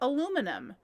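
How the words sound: It is said with four syllables, American style. "if I were to say it in American English"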